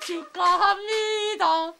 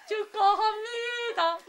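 First: Sung, slow, high sing-song rising; sung congratulations. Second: Sung congratulations falling. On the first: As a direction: sing it like a celebration jingle. (sung, 노래하듯 축하) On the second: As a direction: sing it and let the tune drop. (sung, 노래하듯 내려가는 축하) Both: Pretend.

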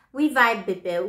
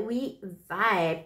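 First: Loud, bright exclamation; excited. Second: Said in the usual way. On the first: Real, not acted. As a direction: shout it happily. Playful bond with Libras.

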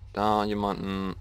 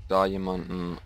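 Both takes have the same delivery.

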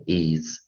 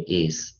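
First: "is" ending in a voiced z; IS with Z sound. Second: "is" ending in a voiceless s; IS with S sound. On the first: Teacher asking when to read it so, "is" with z. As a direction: say "is" with a buzzing z at the end. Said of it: "什么时候念is". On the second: Teacher asking when to read it so, "is" with s. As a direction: say "is" with a hissed s at the end. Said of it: "它什么时候念is". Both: Shown as a demonstration.

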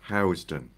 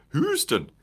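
First: Housden with an "ow" vowel, as in house; pronunciation check. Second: Houston as HOOZ-tun, long "oo", pitched high and falling; northern-sounding pronunciation. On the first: Host repeating the guest's surname to check it, careful pronunciation. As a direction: say HOWZ-den for Housden. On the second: Host trying out the other surname reading, northern-sounding pronunciation. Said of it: "That sounds very northern". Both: Shown as a demonstration.

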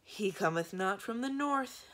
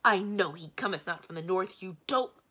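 First: Slow, higher-pitched weary recital. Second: Loud, exasperated retort; irritated snap. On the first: Monster repeats bad news to its master, weary. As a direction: drag it out wearily. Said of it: "began the middle head wearily". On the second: Magician cuts off his monster, snapping angrily. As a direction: snap it back impatiently. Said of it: "snapped the great man". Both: A narrator's reading.

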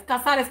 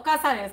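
First: "Casares" stressed on the middle syllable, ca-SA-res. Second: "Cázares" stressed on the first syllable, CÁ-za-res. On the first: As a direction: hit the second A of "Casares". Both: Shown as a demonstration. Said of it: "porque no tiene acento, es en la A".

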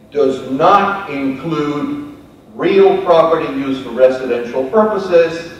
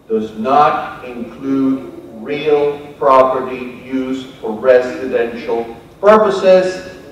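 First: Said in the usual way. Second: Every word laid down slowly, "not" stressed; slow emphatic reading. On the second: Shown as a demonstration. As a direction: read it slowly and deliberately, leaning on "not". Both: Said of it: "I make emphasis on that".

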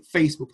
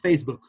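First: "Facebook" with Spanish vowels, feis-buk; Spanish pronunciation. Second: "Facebook" with English vowels, not feis-buk; English pronunciation. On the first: Teacher showing it is not really English, Spanish pronunciation. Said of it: "no vas a decir Facebook". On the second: Teacher showing how true English would sound, English pronunciation. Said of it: "tienes que decir Facebook". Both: Shown as a demonstration.

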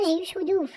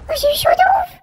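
First: Said in the usual way. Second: Relieved exclamation. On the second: Real, not acted. Relief after narrow escape.

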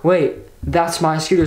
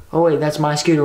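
First: Slow, mildly startled double take; dawning realisation. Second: Casual, passing remark at usual pitch; not yet registering. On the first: Retelling the moment of finding the stolen scooter, mild shock. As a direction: draw it out as it sinks in. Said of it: "So I'm, like, freaking out". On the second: Scrolling the app, spots own scooter, not yet registering. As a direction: toss it off as if still scrolling. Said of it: "didn't really take it in yet". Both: Retold or imitated.

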